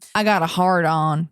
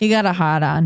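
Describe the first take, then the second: First: It is said in a Southern accent. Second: It is said in a Boston accent.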